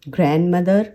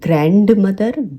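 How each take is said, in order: First: The D in grand is silent. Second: The D in grand is pronounced. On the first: The speaker calls it right. "ग्रैंड वाला जो डी है वो silent है" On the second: The speaker calls it wrong. "इस तरीके से ग्रैंड मदर ग्रैंड फादर नहीं बोलेंगे"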